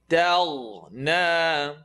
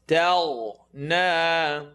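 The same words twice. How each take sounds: Both takes have the same delivery.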